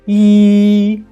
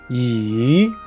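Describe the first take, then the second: First: The pitch stays high and level. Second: The pitch dips down and then rises. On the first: "The first tone is E" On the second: "The third tone, down and up"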